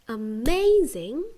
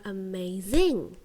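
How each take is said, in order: First: The stress is on the second syllable. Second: The stress is on the third syllable. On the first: The speaker calls it right. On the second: The speaker calls it wrong.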